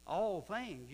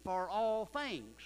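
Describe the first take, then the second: First: "All" hit higher and louder; stress on all. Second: "all" hit loud and high, words slowed; stress on all. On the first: Preacher hammering the phrase to the church, stress on all. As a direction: punch "All" in "All things". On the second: Preacher driving home the verse to the church, loud and slow. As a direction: lean hard on "all" in "For all things". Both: Acted.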